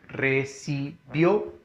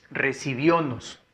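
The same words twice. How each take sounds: First: RECIBIÓNOS slowly split into re-ci-bió-nos; recibiónos with a gap after each syllable. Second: Said in the usual way. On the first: Shown as a demonstration. Teacher repeating the example for the class, slow syllable by syllable.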